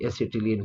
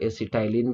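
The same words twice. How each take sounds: First: "एसिटिलीन" with a short i in "टि"; the common classroom reading of "एसिटिलीन", -ti-leen; usual pronunciation. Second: "एसिटाइलिन" with a long "tie" in the middle; the variant reading of "एसिटाइलिन", -tai-lin; alternative pronunciation. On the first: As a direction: say "एसिटिलीन" as a-si-ti-leen, "टि" rhyming with "bit". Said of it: "generally हम लोग एसिटिलीन पढ़ते हैं". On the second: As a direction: say "एसिटाइलिन" as a-si-tie-lin, "टाइ" rhyming with "eye". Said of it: "कुछ लोग एसिटाइलिन भी पढ़ते हैं". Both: Shown as a demonstration.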